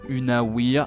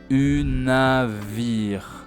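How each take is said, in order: First: The middle consonant is a W sound. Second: The middle consonant is a V sound. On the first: The speaker calls it wrong. "as most French people would read it unawir at first" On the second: The speaker calls it right. "Then we've got a W, which sounds like V"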